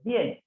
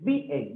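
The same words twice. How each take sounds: First: The stress falls on the last part of the word. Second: The stress falls on the first part of the word. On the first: The speaker calls it right. "dices bien, palabra aguda" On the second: The speaker calls it wrong. "No dices bien"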